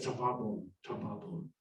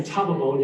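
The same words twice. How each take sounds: First: TaBAbon, stressed on the middle syllable, said low and soft; wrong-syllable accent. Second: TAbabon, stressed on the first syllable; Tababon, accent up front on TA. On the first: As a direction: say Tababon quietly with the weight on BA. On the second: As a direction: say Tababon with the weight on TA. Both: Shown as a demonstration. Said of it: "got the accent on the wrong syllable".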